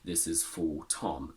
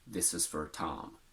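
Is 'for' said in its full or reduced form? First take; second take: full; reduced. First: The word 'for' is said in full. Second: The word 'for' is reduced to 'fur'. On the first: The speaker calls it wrong. "No native speaker would ever say" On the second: The speaker calls it right. "they would say fur"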